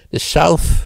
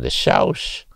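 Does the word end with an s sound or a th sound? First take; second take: th; s. First: The word ends with a th sound. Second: The word ends with a plain s sound. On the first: This is what was intended. The speaker calls it right. "De South bedoelde hij" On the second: Someone else said it this way. The speaker calls it wrong. "En ik hoorde hem zeggen"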